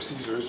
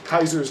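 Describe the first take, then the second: First: The name begins with an S sound. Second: The name begins with a K sound. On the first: "or Caesars, depending on how you say it" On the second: "depending on how you say it"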